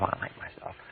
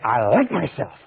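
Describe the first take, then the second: First: It is said quietly, almost to oneself. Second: It is said loudly and with energy.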